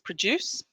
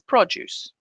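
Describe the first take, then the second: First: The stress is on the second syllable. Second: The stress is on the first syllable. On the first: It is used as a verb. "stress on the verb like this" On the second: It is used as a noun. "and the noun like this"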